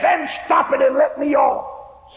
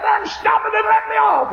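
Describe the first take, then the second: First: Frantic demand, slower. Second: High, loud shouted demand; frantic shout. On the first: Acted. Old woman demanding the conductor let her off. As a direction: plead to be let off. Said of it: "She got frantic". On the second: Retold or imitated. Old woman screaming at the flagman to stop. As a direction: scream to be let off. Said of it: "She got frantic and hysterical".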